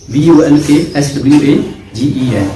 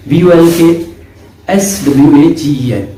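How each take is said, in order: Both takes have the same delivery.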